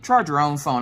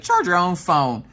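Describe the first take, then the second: First: Said in the usual way. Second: Louder, slower, each word hit hard; fed-up snap. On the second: Retold or imitated. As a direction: throw the words at him like the phone. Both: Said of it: "I trying to chuck the phone".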